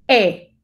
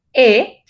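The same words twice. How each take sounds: First: "E" opened toward A, jaw dropped; E con algo de A. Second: "E" as in Spanish, a little toward I, said firmly; louder isolated "E" with the closed Spanish vowel. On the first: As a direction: model an isolated open French "E" with a little A. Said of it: "es una E que tiene un poco de A". ("E" abierta con un poco de A) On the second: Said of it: "no es como la anterior". ("E" cerrada, como la española) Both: Shown as a demonstration.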